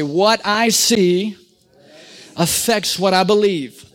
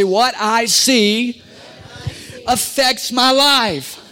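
First: Call and response. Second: Congregation repeat line. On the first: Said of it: "Say this with me". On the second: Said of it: "Say it, everybody". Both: Shown as a demonstration.

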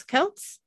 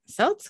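First: "Celts" said as "kelts", hard K sound; "Celts" with a K at the start, asked. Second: "Celts" said as "selts", soft S sound; "Celts" with an S at the start, asked. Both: Shown as a demonstration. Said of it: "I can't say it".

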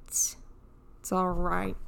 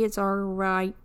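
First: Slow, soft self-soothing; quiet, slow reassurance. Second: Said in the usual way. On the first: Real, not acted. Repeats reassurance softer.

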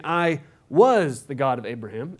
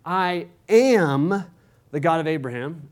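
First: "was" stressed, the line rising at the end. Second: "I am" set apart, "am" pressed a little louder; stress on AM. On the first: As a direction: hit "was" in "I was the God of Abraham" as the contrasting word. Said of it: "as opposed to saying". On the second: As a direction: lean on "am" in "I am the God of Abraham", a short pause after it. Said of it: "the way they want to emphasize". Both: Shown as a demonstration.

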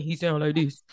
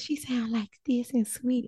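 First: Lightly mimicking a man's lower voice; his voice, put on low; imitated man's voice. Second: Imitating her, light and soft-edged, a little higher; a hint of sweet, airy impersonation; sweet woman's voice. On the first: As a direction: drop lower to mimic him. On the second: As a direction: lightly mimic a sweet female voice.

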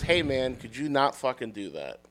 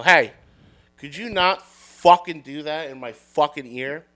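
First: Toned-down retelling. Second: Irritated retort, hard "Hey" up front; annoyed confrontation. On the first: Admitting what was actually said to the barker, understated. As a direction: let it drop away, understated. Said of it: "what I actually said was". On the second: Fed-up bar patron confronting the barker, annoyed. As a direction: push out a fed-up complaint. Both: Retold or imitated.

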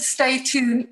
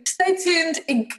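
First: Said in the usual way. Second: Slow down and land each word of Stay Tuned Inc; spelling out the name. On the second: Shown as a demonstration. Guest repeats her company name for the host, slow and stressed. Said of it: "it's called the Stay Tuned".

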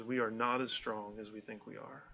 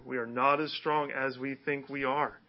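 First: Softer, gentle recited line; preacher softly quoting a song line; soft quoted lyric. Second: Said in the usual way. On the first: Retold or imitated. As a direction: murmur the lyric reflectively. Quoting a [name] lyric.

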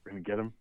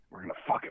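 First: Said in the usual way. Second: Whispered, no voice at all; whispered movie quote. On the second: Retold or imitated. Quoting the cop line to friends, whispered. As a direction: breathe the line like a secret. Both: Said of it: "sounds like something he would say".

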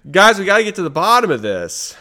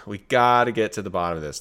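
First: High, loud call to the listeners; rally the troops, all fired up; excited. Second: Said in the usual way. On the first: Real, not acted. Cohost sold on conspiracy, calls listeners excitedly.

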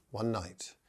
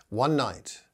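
First: "one night" repeated much softer, drawn in; softer echo. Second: Said in the usual way. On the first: Shown as a demonstration. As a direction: let the repeat drop to a hush. Repeated phrase for emphasis.

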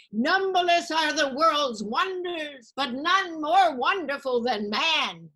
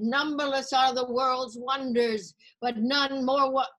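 First: High, slow, loud declaiming of a Greek chorus; grand tragic recital. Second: Slow, raised declaiming, cut off; tragic recital. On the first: Student reciting Greek drama to the class, slow and grand. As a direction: intone it like a stage tragedy. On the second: Student starting her final speech again, slow declaiming. Same speech retried in class. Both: Retold or imitated.

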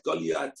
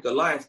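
First: Goliath said the Hebrew way, as Golyat; Hebrew pronunciation. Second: Said in the usual way. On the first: Shown as a demonstration. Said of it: "Goliath in Hebrew".

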